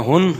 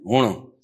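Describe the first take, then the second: First: ہن said "hun", short with plain n; standard Punjabi form. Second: ہن said "hooṇ", longer vowel, curled-back n; Mianwali form. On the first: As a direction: keep ہن short and clean, hun. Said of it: "تو پنجابی میں ہن". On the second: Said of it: "میاں والی میں ہن". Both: Shown as a demonstration.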